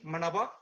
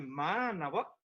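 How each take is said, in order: First: The first vowel is short. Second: The first vowel is drawn out long. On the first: It means conscience. The speaker calls it wrong. "sinon vous risquez de dire manava, qui n'a plus le même sens" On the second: It means welcome. The speaker calls it right. "quand on tire un petit peu manava, c'est bienvenue"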